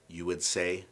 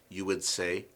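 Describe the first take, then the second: Both takes have the same delivery.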